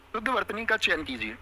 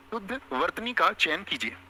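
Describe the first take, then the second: First: Said in the usual way. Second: शुद्ध वर्तनी का चयन कीजिए read slowly, word by word; teacher repeating slowly for dictation. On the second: Shown as a demonstration. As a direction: say it slowly so the class can write it down.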